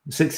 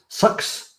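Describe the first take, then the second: First: The vowel sounds like the one in 'six'. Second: The vowel sounds like the one in 'sucks'. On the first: "Six is the way you should say it. It's the proper way" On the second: "I think New Zealanders say sucks"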